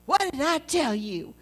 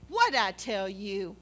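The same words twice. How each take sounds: First: Lightly mocking his scolding-parent tone; mimicking him. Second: Put-on talking down to a kid. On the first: To Steve, teasingly parroting his scolding line. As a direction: throw his own scolding words back at him, teasing. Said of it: "I said it back to him". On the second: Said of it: "isn't that how you talk to a little kid".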